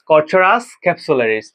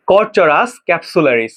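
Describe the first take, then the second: First: Said in the usual way. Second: কর্চরাস ক্যাপসুলারিস spelled out slowly, each syllable clear; teacher models কর্চরাস ক্যাপসুলারিস slowly for the class; slow pronunciation demo. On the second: Shown as a demonstration. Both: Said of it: "আমার সাথে সাথে বলো".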